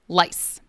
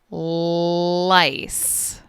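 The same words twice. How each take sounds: First: The word is said at a normal speed. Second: The word is drawn out very slowly. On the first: "I'm going to say each word normally first" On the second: "then I will repeat each word very slowly"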